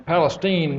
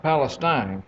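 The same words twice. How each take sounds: First: Palestine with the last syllable as steen, like the Texas town; Palestine said PAL-uh-steen. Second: Palestine with the last syllable rhyming with line, the usual way; Palestine said PAL-uh-stine. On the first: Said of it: "And it is pronounced". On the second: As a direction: give Palestine the common stine ending. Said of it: "not Palestine". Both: Shown as a demonstration.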